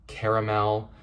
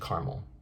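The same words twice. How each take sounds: First: The word is said with three syllables. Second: The word is said with two syllables. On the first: "It's not caramel" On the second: "It's usually caramel, two syllables. They drop that A"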